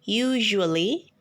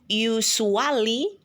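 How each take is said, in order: First: The middle consonant is a zh sound. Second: The middle consonant is not a zh sound. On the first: The speaker calls it right. "tetapi usually" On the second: The speaker calls it wrong. "bukan dibaca usually"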